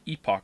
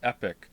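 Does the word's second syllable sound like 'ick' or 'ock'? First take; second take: ock; ick. First: The second syllable sounds like 'ock'. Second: The second syllable sounds like 'ick'. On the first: The speaker calls it right. "I say epoch" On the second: The speaker calls it wrong. "Many people pronounce it epic"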